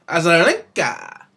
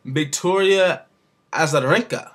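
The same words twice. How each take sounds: First: "Azarenka" stretched out slowly; slow, emphatic attempt at "Azarenka"; exaggerated name pronunciation. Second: "Victoria Azarenka" said carefully, name by name; first careful go at "Azarenka"; careful name pronunciation. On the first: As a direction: draw out "Azarenka", leaning on the last syllables. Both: Real, not acted. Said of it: "gonna try to get this right".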